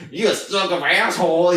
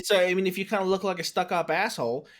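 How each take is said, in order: First: Mocking voice. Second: Changed voice. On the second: Retold or imitated. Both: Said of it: "your voice changed".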